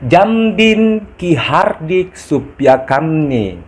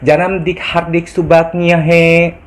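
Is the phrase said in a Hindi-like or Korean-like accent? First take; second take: Hindi-like; Korean-like. First: It is said with a Hindi-sounding accent. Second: It is said with a Korean-sounding accent. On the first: The speaker calls it right. "Saya ulangi" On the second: The speaker calls it wrong. "Tapi logatnya jangan seperti logat Korea"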